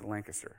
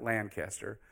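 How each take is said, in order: First: It is said the local Pennsylvania way. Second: It is said in a non-local way. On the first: The speaker calls it right. "if you're from Pennsylvania, you say Lancaster" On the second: The speaker calls it wrong. "it's not Lancaster"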